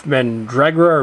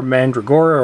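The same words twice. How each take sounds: First: Mandragora with the stress on DRAG; first pronunciation. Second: Mandragora with the stress on GOR; alternative pronunciation. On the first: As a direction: say Mandragora as man-DRAG-ora. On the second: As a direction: say Mandragora as man-dra-GOR-a. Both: Shown as a demonstration. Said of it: "however you want to pronounce it".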